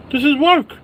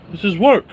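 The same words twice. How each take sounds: First: This is work squeaked up high and louder; high squealed insistence. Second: Said in the usual way. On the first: Acted. Vlogger insisting streaming is work, falsetto.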